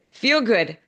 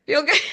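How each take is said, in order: First: Said in the usual way. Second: Much higher, breaking into a laugh; giggling through the repeated feel good. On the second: Real, not acted. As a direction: let it tip into laughter. Repeats phrase, then laughs.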